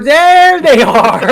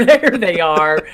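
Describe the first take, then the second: First: Slow, high and loud unveiling of the guests; big reveal. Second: Said in the usual way. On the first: Acted. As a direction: present them like a grand prize.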